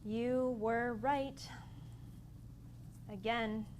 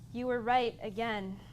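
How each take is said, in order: First: Each word is spoken slowly and separately. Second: The words are run together quickly. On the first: The speaker calls it right. "so right, were, they're separate" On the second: The speaker calls it wrong. "So that's too fast"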